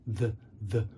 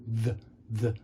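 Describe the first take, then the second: No difference in how they are said.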